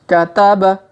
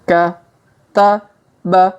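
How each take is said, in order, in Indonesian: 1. Diucapkan cepat, sebagai satu kata yang lancar. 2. Diucapkan pelan, suku kata demi suku kata. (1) "Kalau dipercepat" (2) "Kita baca pelan-pelan"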